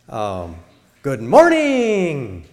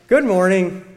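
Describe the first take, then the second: First: It is said with lively enthusiasm. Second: It is said with a happy smile. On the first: "That's enthusiastic" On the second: "With a happy smile"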